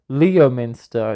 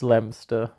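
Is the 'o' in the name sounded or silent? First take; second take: sounded; silent. First: The name is said with every letter sounded. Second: The name is said with the 'o' left silent. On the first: The speaker calls it wrong. "Everyone always says like Leominster" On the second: The speaker calls it right. "It's just there's no O"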